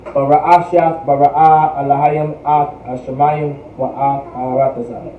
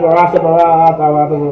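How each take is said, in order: First: It is said at a steady, moderate pace. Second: It is said very fast.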